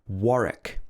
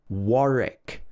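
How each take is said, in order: First: The middle W sound is silent. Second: The same.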